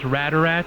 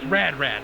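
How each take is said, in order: First: An extra vowel joins the two words. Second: The two words are said without a joining vowel. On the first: This is how the character says the name. "she kind of enunciates it. She goes Radarat" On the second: This matches how the name is spelled. "But it, it's Rad Rat"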